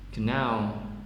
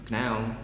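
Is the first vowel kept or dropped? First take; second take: kept; dropped. First: The first vowel is clearly pronounced. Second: The first vowel is dropped or nearly lost.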